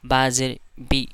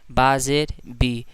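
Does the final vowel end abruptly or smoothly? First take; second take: abruptly; smoothly. First: The final vowel is cut off with a jerk. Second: The final vowel is released smoothly without catch. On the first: The speaker calls it wrong. "कम खींचने के चक्कर में वो झटका दे देते हैं" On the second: The speaker calls it right. "सिर्फ उसको पढ़ना है और उसका सिर्फ आवाज़ को निकाल देना है"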